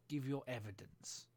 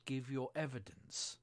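First: Said in the usual way. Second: A touch of anger, slow; angrily. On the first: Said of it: "said the King". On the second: A narrator's reading. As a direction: repeat it with mild irritation. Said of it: "the king repeated angrily".

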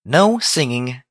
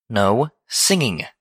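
First: Stern, higher-pitched "no" that glides up. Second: "no singing" slowly, a gap between the words; stern repeat. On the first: Twilight forbidding Pinkie's song, stern. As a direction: lay down the rule firmly. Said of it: "Twilight Sparkle said sternly". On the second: Twilight cutting off Pinkie's protest, "no singing" slow and firm. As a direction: draw out "no", then "singing" high and falling. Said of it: "she repeated". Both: A narrator's reading.

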